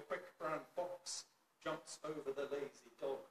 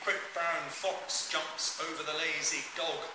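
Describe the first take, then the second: First: The distant voice is picked up on the standard setting. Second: The distant voice is picked up on the long-distance setting. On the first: "I'm now about nine or ten meters away" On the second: "Sound test for the Belkin microphone on its long distance setting"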